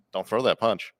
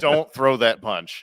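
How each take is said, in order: First: Said in the usual way. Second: Slow, louder, higher retold warning; drawn-out imitated caution; slow mock warning. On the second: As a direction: stretch it out, word by word. Same warning repeated emphatically.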